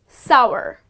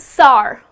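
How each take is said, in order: First: The vowel rhymes with power. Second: The vowel does not rhyme with power. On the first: The speaker calls it right. "it rhymes with the word power" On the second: The speaker calls it wrong. "many people pronounce it as sour"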